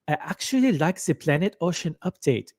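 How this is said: It is read with a put-on German accent.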